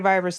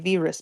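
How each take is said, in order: First: The first vowel sounds like 'eye'. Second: The first vowel sounds like 'ee'. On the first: This is how English speakers say it. "we would say virus like that" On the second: This is how Spanish speakers say it. "they would say virus because I's are pronounced like E's"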